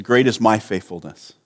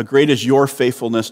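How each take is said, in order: First: "my" accented against the rest of the phrase; low phrase with contrastive accent on "my"; stress on my. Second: "your" accented, the rest falling away; light contrastive accent on "your"; stress on your. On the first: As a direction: put the weight on "my". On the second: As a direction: put the weight on "your". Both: Shown as a demonstration. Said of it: "changing the psalm".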